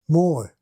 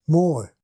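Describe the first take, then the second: The two takes are said the same way.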